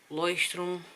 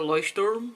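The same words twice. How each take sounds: First: The word is pronounced with German sounds. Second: The word is pronounced with English sounds. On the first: "I live in Germany and I have to speak German" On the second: "So I don't say uh, Leuchtturm"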